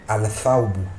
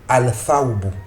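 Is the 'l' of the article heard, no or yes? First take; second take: yes; yes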